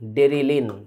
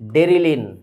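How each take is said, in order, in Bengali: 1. দ্বিতীয় স্বরধ্বনিটি 'i'-এর মতো শোনায়। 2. দ্বিতীয় স্বরধ্বনিটি 'i'-এর মতো শোনায়।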